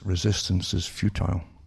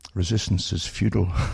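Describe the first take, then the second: First: Futile is said without an American pronunciation. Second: Futile is said the American way, like feudal.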